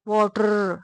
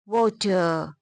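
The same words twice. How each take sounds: First: Pakistani style, with a long final R. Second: It ends in a schwa with no R.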